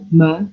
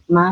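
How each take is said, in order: First: The ma is said heavy and thick. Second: The ma is said light and thin. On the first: The speaker calls it wrong. "bukan ma" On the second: The speaker calls it right. "Mimnya juga ma"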